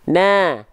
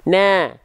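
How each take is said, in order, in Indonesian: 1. Vokalnya terdengar tipis, bibir melebar seperti senyum. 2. Vokalnya terdengar tipis, bibir melebar seperti senyum.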